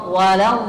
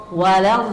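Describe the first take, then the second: The two takes are said the same way.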